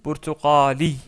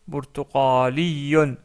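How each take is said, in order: First: The word ends on a plain long i vowel. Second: The word ends with an added -un syllable. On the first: The speaker stops on the word. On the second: The word continues into the sentence.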